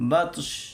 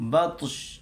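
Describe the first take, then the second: First: The word ends with a consonant sound. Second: The same.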